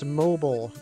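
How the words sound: Mobile is said with an American pronunciation.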